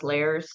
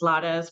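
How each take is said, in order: First: Lairs as one syllable, like "layers"; mistaken name pronunciation. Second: Lada's in two syllables, "LAH-das"; correct name pronunciation. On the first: Host tells of waiting-room mix-ups, Lairs said English-style. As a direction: say Lairs with an English "air" vowel. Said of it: "they'll see me and I'm very pasty". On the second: Host gives her real surname, Lada's said with open vowels. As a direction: say Lada's with open "ah" and a tapped middle consonant. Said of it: "they don't recognize it's Lada's". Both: Shown as a demonstration.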